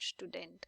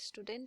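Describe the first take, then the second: First: The word begins with an sh sound. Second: The word begins with a plain s sound.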